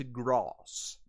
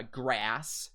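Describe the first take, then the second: First: "grass" with a broad "ah", like "grahss"; long open A in "grass"; High British pronunciation. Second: "grass" with the A of "cat"; American short A in "grass"; American pronunciation. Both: Shown as a demonstration. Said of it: "grass will turn into grass".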